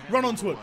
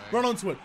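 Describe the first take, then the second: No difference in how they are said.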